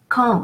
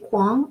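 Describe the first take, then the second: First: The word begins with a plain k sound. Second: The word begins with a kw sound. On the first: The speaker calls it right. "U after Q is silent" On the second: The speaker calls it wrong. "we won't uh, try to say Kwang or something like that"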